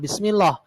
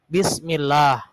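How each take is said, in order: First: The final 'lah' is thick and heavy. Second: The final 'lah' is thin and light. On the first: The speaker calls it wrong. "bukan bismillah ... Itu tafhim" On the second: The speaker calls it right. "tapi bismillah ... itu tarkik"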